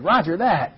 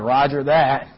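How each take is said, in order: First: It sounds eager and willing. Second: It sounds grudging and contemptuous. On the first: The order is welcome and will be done gladly. "something that needed to be done and you were happy to have permission" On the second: The order is considered pointless and foolish. "some instruction that you thought was really dumb and didn't need to be done at all"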